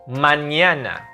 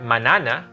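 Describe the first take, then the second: First: The second n is a ny sound. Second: The second n is a plain n. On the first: The speaker calls it right. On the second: The speaker calls it wrong.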